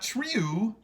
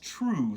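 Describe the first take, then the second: First: The vowel sounds like 'yoo'. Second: The vowel sounds like 'oo'. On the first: The speaker calls it wrong. "It's not true" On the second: The speaker calls it right. "It's true. So we again, it's the O O"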